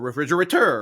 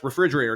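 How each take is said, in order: First: The stress falls on another unusual syllable. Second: The word carries its ordinary, natural stress. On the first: The word is bent to fit the rhyme. The speaker calls it wrong. "or refrigerator" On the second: The word is said as it normally is. The speaker calls it right. "Seuss writes refrigerator"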